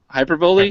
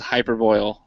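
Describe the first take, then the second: First: The word ends with a sound like 'bolee'. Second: The word ends with a sound like 'boil'. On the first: The speaker calls it right. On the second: The speaker calls it wrong.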